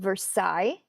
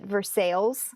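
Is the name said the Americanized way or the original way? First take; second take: original; Americanized. First: The name is given its original pronunciation. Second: The name is given its Americanized pronunciation. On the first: This is how the name would normally be said. "somewhere in America called Versailles" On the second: This is how the local residents say it. "they call it Versailles"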